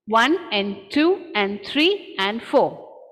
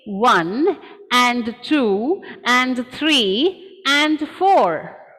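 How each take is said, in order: First: Each 'and' is squeezed to a short 'n'. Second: Each 'and' is said fully with even beats. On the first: "My word and has become n" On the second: "if I am following the syllable stressed pattern"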